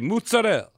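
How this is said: It is pronounced in an Italian-sounding way. "they say mozzarella, even though it's the rest of it is just regular American English"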